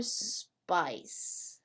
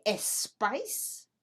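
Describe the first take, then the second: First: "spice" starting straight on the S; one syllable "spice" with a long opening S; clean initial S. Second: "espice" with an extra "eh" before the S; added E before S. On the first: Teacher offers learners the right choice, clean initial S. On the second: Teacher offers learners the wrong choice, added E before S. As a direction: say "espice" as two syllables, es-PICE. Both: Shown as a demonstration. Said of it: "Do we say espice".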